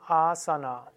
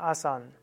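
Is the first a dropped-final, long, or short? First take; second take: long; dropped-final. First: The first a is long, final a kept. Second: The final a is left off entirely. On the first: The speaker calls it right. "korrekt wäre es Asana" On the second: The speaker calls it wrong. "Da lässt man eben das letzte A weg"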